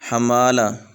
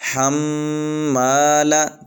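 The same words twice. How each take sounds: First: The m sound is short and single. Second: The m sound is held and doubled. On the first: The speaker calls it wrong. "इस तरह पढ़ देंगे, इस तरह नहीं पढ़ना" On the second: The speaker calls it right. "ये जो मीम के शद है"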